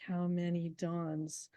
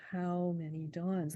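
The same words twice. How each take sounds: First: Slow, stressing many; scanned meter. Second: Slow, falling on dawns; dactylic reading. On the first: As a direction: read how many dawns with MANY stressed, slowly. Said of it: "he's writing iambic pentameter". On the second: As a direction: read how many dawns as a dactyl, DAWNS falling. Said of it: "if it's more of a question". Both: Shown as a demonstration.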